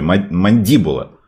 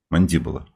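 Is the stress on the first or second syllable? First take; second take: first; second. First: The stress is on the first syllable. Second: The stress is on the second syllable. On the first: The speaker calls it wrong. "Ударение все-таки не на первый слог" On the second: The speaker calls it right. "а на второй"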